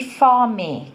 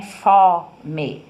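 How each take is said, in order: First: Said in the usual way. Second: "Fome" with a loud, open O in the first syllable; "Fome" split as FÓ-me, first part strong; open vowel. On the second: Shown as a demonstration. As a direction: sound out "Fome" in two syllables, hitting an open FÓ. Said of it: "o ó é aberto".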